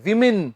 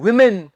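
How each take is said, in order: First: The first syllable sounds like 'wih'. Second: The first syllable sounds like 'wih'.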